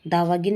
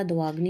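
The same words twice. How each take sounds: First: दावागिन ending in gin; wrong pronunciation. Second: दवाग्नि with gn joined, ending in i; correct pronunciation. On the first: Teacher showing the error, दावागिन ending in gin. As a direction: put i between g and n in दावागिन. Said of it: "नहीं होता". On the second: Teacher correcting the word, दवाग्नि ending in gni. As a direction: join g and n in दवाग्नि. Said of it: "होता है". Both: Shown as a demonstration.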